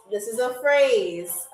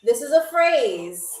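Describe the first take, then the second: First: This is a phrase said slowly and deliberately; slow teaching repeat. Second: Said in the usual way. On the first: Shown as a demonstration. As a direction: spell out This is a phrase slowly, word by word. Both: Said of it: "repeated slowly".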